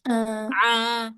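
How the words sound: The sound is nasal, passing through the nose. The speaker calls it wrong. "suara yang bindeng tuh gini nih"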